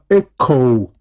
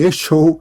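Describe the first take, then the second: First: The middle consonant is a k sound. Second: The middle consonant is an sh sound. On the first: The speaker calls it right. "sino echo" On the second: The speaker calls it wrong. "ni echo"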